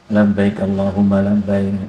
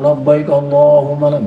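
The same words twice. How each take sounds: First: The phrase is said quietly and gently. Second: The phrase is said loudly and strongly. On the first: This is how a woman should recite it. The speaker calls it right. "cuman liris saja ya" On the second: A woman should not recite it this way. The speaker calls it wrong.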